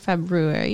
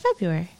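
First: The first R is pronounced clearly. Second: The first R is left silent. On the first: The speaker calls it wrong. "you don't say February" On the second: The speaker calls it right. "You say February. ... silent letters"

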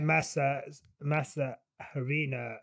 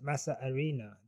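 First: The h at the start of harina is pronounced. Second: The h at the start of harina is silent. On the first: The speaker calls it wrong. "my Massa Harina pronunciation was wrong" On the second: The speaker calls it right. "The H is silent"

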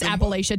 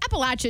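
First: It is said with the general, non-Southern pronunciation. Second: It is said with the Southern pronunciation. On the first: The speaker is not from the South. "to everyone else" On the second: The speaker is from the South. "what you say when you're just southern"

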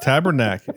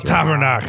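First: It is said plainly with an English accent. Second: It is said gutturally with a French accent. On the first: The speaker calls it wrong. "But we're not saying it right" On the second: The speaker calls it right. "you got to say it with the French phlegm"

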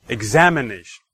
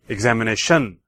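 First: The stress falls on the second syllable, 'am'. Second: The stress falls on the fifth syllable, 'tion'. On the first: "the second" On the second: "And fifth"

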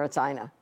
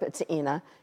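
First: The name is said the American way. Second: The name is said the European way. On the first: This is how people here say the name. "and here it's Ina" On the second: This is how people in Europe say the name. "in Europe, it's Ina"

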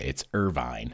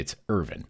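First: It is said the California way, ending in 'vine'. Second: It is said the Kentucky way, ending in 'vin'.

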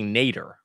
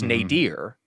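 First: The word sounds just like the name Nader. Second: The word does not sound like the name Nader. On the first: The speaker calls it right. "it's actually Nader, like Ralph Nader" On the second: The speaker calls it wrong. "I always thought it was nadir, having read it and not said it aloud"

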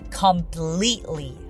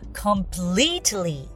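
First: The t sound is dropped. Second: The t sound is pronounced. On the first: "私はcompletely" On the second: "completely とt を発音する方もいらっしゃいます"

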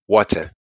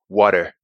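First: The T is hard, as in Mama's accent. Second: The T is soft, as in Dada's accent.

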